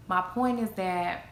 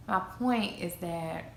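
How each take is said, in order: Both takes have the same delivery.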